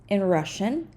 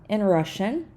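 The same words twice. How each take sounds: Both takes have the same delivery.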